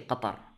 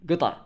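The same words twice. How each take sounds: First: It is said with standard Arabic pronunciation. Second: It is said with local dialect pronunciation. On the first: The speaker calls it wrong. "it's like the Fusha way of saying, standard Arabic way of saying" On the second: The speaker calls it right. "the way we say it"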